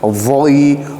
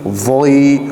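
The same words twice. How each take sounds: Both takes have the same delivery.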